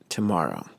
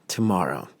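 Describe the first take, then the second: Both takes have the same delivery.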